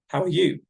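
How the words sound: The voice rises at the end. It is a real question. "asking the question with a rising intonation"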